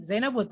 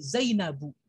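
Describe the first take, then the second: First: "Zainabun" with a wrong final n sound; salah baca. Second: "Zainabu" ending on an open u, no n; bacaan yang benar. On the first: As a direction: say "Zainabun", ending in -bun as the mistaken form. ("Zainabun" dengan akhiran -bun yang keliru) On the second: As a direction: model "Zainabu" clearly, closing on -bu without nasal ending. ("Zainabu" berakhir -bu tanpa bunyi n) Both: Shown as a demonstration. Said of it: "Salah, bukan Zaiman, Zainabun, tapi".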